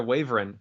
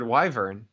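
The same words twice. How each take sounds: First: "wyvern" said as WAY-vern; quoted family pronunciation. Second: "wyvern" said as WHY-vern; standard pronunciation. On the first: Retold or imitated. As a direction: echo "wyvern" with "way" at the start. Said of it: "pronounces it wyvern". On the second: Shown as a demonstration. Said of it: "I've always, always, always heard".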